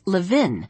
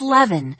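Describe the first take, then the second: First: The name ends rhyming with 'pin'. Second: The name ends rhyming with 'heaven'. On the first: The speaker calls it wrong. "mispronounced Jessie's last name as Levin, rhyming it with the pin" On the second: The speaker calls it right. "rhymes with heaven"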